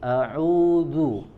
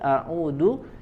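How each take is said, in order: First: The middle consonant is a soft 'dh' sound. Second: The middle consonant is a hard 'd' sound. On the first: I seek refuge. The speaker calls it right. "aku berlindung" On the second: I return home. The speaker calls it wrong. "jika kita membacanya dengan huruf dal"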